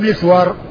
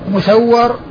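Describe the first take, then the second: First: It starts with 'mis' and has a single 'w'. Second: It starts with 'mu' and has a doubled 'w'. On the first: This form belongs to everyone else with the name. "بالميم المكسورة والسين الساكنة والواو المفتوحة" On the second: This form belongs to only two particular men. "بهذه الصيغة المضمومة والسين مفتوحة والواو مشددة"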